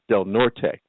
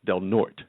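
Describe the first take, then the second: First: The name is said with Spanish-style sounds. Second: The name is said with English-style sounds. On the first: This is how the spelling should be read. "which should be pronounced Del Norte"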